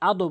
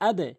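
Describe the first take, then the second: First: The final consonant bounces with a rounded 'o'-like echo. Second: The final consonant bounces with a fronted 'e'-like echo. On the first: The speaker calls it wrong. "আদো বলবেন না" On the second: The speaker calls it right.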